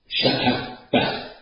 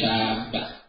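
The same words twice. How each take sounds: First: A glottal stop replaces the long vowel. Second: The first vowel is long with no glottal stop. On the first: This is the form used in some tribes' dialect. "في لهجة بعض القبائل كقولهم" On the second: This is the standard form. "يعني"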